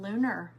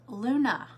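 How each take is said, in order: First: The word ends with an r sound. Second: The word ends in a plain vowel, no r. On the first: The speaker calls it wrong. "I was calling them lunar moths for the longest time" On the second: The speaker calls it right. "Luna, like tuna, Luna moth, that's what it's called"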